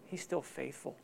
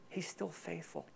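First: Soft emphasis. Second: Softer on "still faithful", almost a breath; near-whispered. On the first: Repeats the line softer. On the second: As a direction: let it drop to nearly nothing. Repeats it even softer. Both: Real, not acted.

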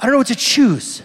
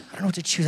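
First: Higher, louder mock dithering at the menu; hammed-up overwhelmed customer; mock indecisive diner. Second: Said in the usual way. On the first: Shown as a demonstration. Preacher mimicking himself lost at a menu, mock dithering. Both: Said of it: "Like, I don't know what to choose".

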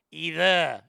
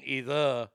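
First: "Either" as Australian "ee-thah", pitched up; Australian accent. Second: "either" as low Boston "ee-thuh"; Boston accent. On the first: Comparing Australian with Boston, Australian accent. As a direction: say "Either" lifted, Australian style. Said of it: "Either is Australian". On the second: Comparing Boston with Australian, Boston accent. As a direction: say "either" pitched down, Boston style. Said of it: "either is Boston". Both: Shown as a demonstration.

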